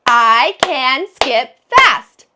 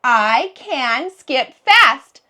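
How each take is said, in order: First: Slow, louder, one clap per word; slow loud clapped sentence; clapping the words. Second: Words read out slowly and evenly; slow model sentence. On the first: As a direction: clap out each word slowly and loudly. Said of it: "Let's clap the words". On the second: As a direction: read each word slowly for the kids. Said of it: "My sentence is". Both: Shown as a demonstration.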